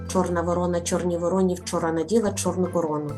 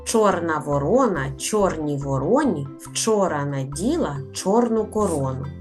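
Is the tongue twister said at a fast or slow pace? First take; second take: fast; slow. First: The phrase is spoken at a fast pace. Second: The phrase is spoken at a slower pace.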